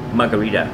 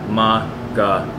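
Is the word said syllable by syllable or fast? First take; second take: fast; syllable by syllable. First: It is said quickly as one smooth word. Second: It is said slowly, broken into syllables.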